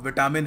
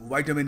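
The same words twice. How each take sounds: First: It is said with a common Indian pronunciation. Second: It is said with an American pronunciation. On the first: The speaker calls it wrong. "इसकी बहुत ही गलत pronunciation है" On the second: The speaker calls it right. "American विटामिन कहते हैं"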